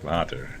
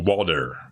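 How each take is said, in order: First: The middle consonant is a clear T. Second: The middle consonant sounds like a D. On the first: It is said the Dutch way. "In Holland we say water. ... with a T" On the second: It is said the American way. "you're American, right? ... the water with a D"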